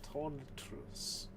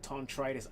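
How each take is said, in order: First: The name is said as 'Tonitrus'. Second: The name is said as 'Tontritis'. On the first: The speaker calls it right. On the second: The speaker calls it wrong.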